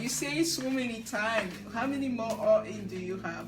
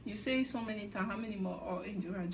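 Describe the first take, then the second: First: Teasing repeat, pushed a little louder; mock teasing, louder take. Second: Muttered mock teasing. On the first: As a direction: needle him like Dio did. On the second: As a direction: throw the jab away under your breath. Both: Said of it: "making fun of Johan".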